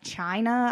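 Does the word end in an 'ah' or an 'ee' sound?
ah. The word ends in an 'ah' sound. "if you were talking about like China"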